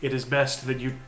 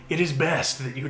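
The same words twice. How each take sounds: First: It is said in a natural speaking voice. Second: It is said in a put-on character voice. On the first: The speaker calls it wrong. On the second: The speaker calls it right.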